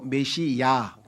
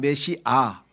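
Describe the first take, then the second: First: The word ends with a 'yah' sound. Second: The word ends with a plain 'ah' sound. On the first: This is the Greek form of the word. "신약에 와서는 헬라식 발음으로 메시야" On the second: This is the Hebrew form of the word. "구약에서는 메시아 히브리식 발음으로"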